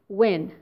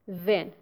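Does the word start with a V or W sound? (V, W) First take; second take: W; V. First: The word starts with a W sound. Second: The word starts with a V sound. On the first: The speaker calls it right. "It is when" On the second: The speaker calls it wrong. "not then"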